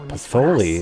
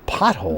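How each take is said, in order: First: The word ends with an extra 'ee' syllable. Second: The word ends without an extra syllable. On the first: The speaker calls it wrong. "she pronounced it Patholi" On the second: The speaker calls it right. "It's pothole"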